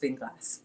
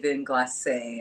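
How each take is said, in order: First: The name is said with a French pronunciation. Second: The name is said in a common non-French way. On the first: "I think in French is Vin Glace" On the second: "some people say Vin Glacé"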